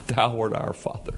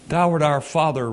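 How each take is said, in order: First: Soft, hushed prayer to a father; intimate. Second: Said in the usual way. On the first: Shown as a demonstration. Quiet prayer of Isaiah to God as Father, hushed and intimate. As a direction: speak it close, like a private word to God. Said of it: "he's having a little conversation, an intimate conversation". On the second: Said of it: "he's having a little conversation".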